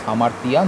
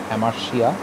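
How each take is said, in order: First: The consonant before the ending is a clear t. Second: The consonant before the ending is an sh sound. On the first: The speaker calls it right. "So it's hamartia" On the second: The speaker calls it wrong. "not hamartia"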